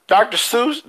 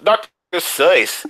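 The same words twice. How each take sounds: First: Doctor Seuss said "Doctor Soos", high and questioning; wrong pronunciation. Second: Doctor Seuss said slowly as "Doctor Soyce"; correct pronunciation. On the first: Speaker doubting the made-up name, wrong pronunciation. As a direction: lift Seuss in Doctor Seuss, rhymed with "goose". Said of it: "that's not how you pronounce it". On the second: Speaker correcting the made-up name, correct pronunciation. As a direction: stretch Seuss in Doctor Seuss to rhyme with "voice". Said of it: "Like soy sauce". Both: Shown as a demonstration.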